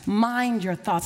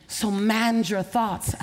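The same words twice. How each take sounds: First: Slow echo. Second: Slow, each word weighted; slow charge. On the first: Preacher repeats the charge, slow echo. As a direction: echo it slowly. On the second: Preacher charges the audience, slow and weighty. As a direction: press each word slowly. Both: Acted.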